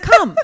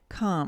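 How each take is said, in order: First: The word is said with lively enthusiasm. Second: The word is said flatly, without enthusiasm. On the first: The speaker calls it right. "it has to be come, ... There has to be an exclamation point on the end of that in your voice" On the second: The speaker calls it wrong. "You can't just say"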